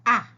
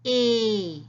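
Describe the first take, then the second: First: Ah, the short a as in apple; short a sound. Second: A said like its letter name; long a sound. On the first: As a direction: say ah short and open. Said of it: "listen to the sound of the letter A". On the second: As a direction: say A, the long vowel ay. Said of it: "the A says". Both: Shown as a demonstration.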